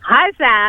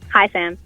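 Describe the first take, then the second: First: It is said with more energy. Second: It is said flatly, with little energy.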